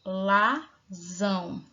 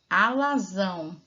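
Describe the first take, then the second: First: Alazão drawn out slowly, each syllable apart. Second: Said in the usual way. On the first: Shown as a demonstration. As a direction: stretch alazão for counting. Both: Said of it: "Nós temos uma, duas, três".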